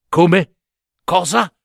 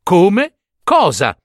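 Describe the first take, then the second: First: Puzzled, higher-pitched, rising at the end; bewildered question. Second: Louder repeat, dropping on the last word; recorded echo. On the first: Acted. Second brother thrown by the princess's answer, bewildered. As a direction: ask it blankly, caught off guard. Bewildered suitor asks, scribes repeat. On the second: A narrator's reading. Scribes record the suitor's words, echoing them. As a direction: echo it back as if taking it down. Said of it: "tutti gli scrivani registrarono".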